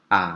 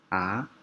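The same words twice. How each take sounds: First: It is said with the third tone. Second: It is said with the second tone. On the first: "Yang ketiga A" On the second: "Yang kedua A"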